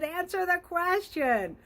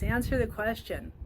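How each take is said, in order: First: High, slow words squeezed out through laughter; laughing. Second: Said in the usual way. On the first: Real, not acted. Still laughing as she repeats her advice to the client. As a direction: stretch it out while still laughing.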